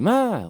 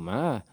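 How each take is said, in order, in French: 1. Il se prononce avec le ton qui signifie cheval. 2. Il se prononce avec le ton qui signifie chien. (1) "une fois tu dis cheval" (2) "une fois tu dis chien"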